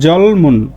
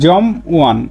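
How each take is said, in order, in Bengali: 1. শেষের m দ্বিতীয় অক্ষর শুরু করতে সরে যায়। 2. অক্ষর ভাগ হয় এবং কোনো ব্যঞ্জন পরের অক্ষরে যায় না। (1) "দ্বিতীয় বাচ্ছিমটি ইয়ং এর এখানে চলে যাবে" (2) "এমনি যদি আপনি উচ্চারণ করেন এটার উচ্চারণ হবে কি জম ওয়ান স্বাভাবিকভাবে"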